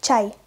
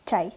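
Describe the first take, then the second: First: Чай said slowly and carefully; slow demonstration. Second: Чай said short, at natural speed; native-speaker reading. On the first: Teacher reads Чай for beginners to imitate, slowly. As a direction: draw out Чай for learners. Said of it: "I will read the word slowly". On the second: Teacher models Чай for learners, natural native pace. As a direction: say Чай casually, as a native would. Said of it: "read the word as a native speaker". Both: Shown as a demonstration.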